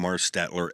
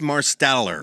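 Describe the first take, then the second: First: The name is said with 'stet' in the middle. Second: The name is said with 'stell' in the middle. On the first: The speaker calls it wrong. "I always call him Marstetler, and I apologize" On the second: The speaker calls it right. "it's Chance Marsteller"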